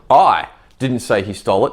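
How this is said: The stress is on I.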